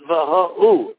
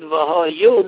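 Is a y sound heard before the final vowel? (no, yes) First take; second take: no; yes. First: No y sound comes before the final vowel. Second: A clear y sound comes before the final vowel. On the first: The speaker calls it wrong. "not V'Ho'u. And V'Ho'u means nothing" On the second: The speaker calls it right. "pronounce Yud V'Hoyu"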